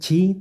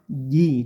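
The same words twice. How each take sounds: First: The j is released with a lot of air. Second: The j is released with very little air. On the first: The speaker calls it wrong. "bukan ji" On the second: The speaker calls it right. "tapi ji ... tidak banyak anginnya"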